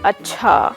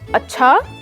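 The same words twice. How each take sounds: First: The word is said flat, without melody. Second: The word is said with a curious, questioning tone.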